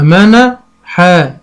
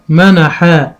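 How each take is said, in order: First: منحا drawn out very slowly, syllables joined; slow blending. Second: Said in the usual way. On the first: Shown as a demonstration. Teacher blending syllables for a child, slowly. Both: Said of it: "أنطقها أقول إيه".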